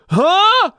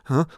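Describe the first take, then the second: First: It gets louder and more pushed going higher. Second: It gets softer and lighter going higher. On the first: The speaker calls it wrong. "It's not that, which is what a lot of us do when we try to go higher" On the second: The speaker calls it right. "Also gets softer and lighter as it gets higher"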